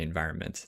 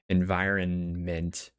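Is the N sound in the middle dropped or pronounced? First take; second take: dropped; pronounced. First: The middle N sound is dropped. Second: The middle N sound is clearly pronounced. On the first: "A lot of people will drop the pronunciation on the N. ... You can just say environment. That's fine" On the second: "nobody's going to be upset if you don't say environment"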